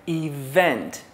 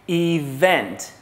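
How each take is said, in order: No difference in how they are said.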